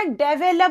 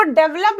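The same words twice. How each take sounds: First: डेवलप in three syllables, "de-ve-lup"; correct develop. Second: डेवलप squeezed to two syllables, "dev-lup"; mispronounced develop. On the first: Teacher shows students what to say, डेवलप slowly as "de-ve-lup". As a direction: say डेवलप with a full middle vowel, "de-VE-lup". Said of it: "डेवलप बोलना". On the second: Teacher shows students how not to read it, डेवलप said as "dev-lup". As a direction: say डेवलप as "DEV-lup", dropping the middle vowel. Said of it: "इसको डेवलप मत पढ़ना". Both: Shown as a demonstration.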